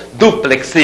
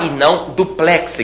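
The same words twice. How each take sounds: First: "Duplex" with open é, stress on the last syllable; correct duplex. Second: "duplex" with stress on the first syllable; wrong duplex. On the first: Teacher dictating "Duplex" with open é. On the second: Teacher showing the wrong "duplex", stress on the first syllable. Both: Shown as a demonstration.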